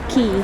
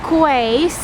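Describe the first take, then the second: First: It begins with a plain 'k' sound. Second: It begins with a 'kw' sound. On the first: The speaker calls it right. "it should be pronounced Key" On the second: The speaker calls it wrong. "I used to pronounce that"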